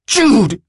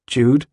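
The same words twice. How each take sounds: First: High, loud shout of the name; furious shout. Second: A hesitant, rising question; distant, tentative. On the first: Willem loses his temper at his friend, furious shout. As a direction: explode at him in fury. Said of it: "he shouts, astonished by his own fury". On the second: Willem asks his friend in the car, tentative. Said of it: "his own voice sounds far away". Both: A narrator's reading.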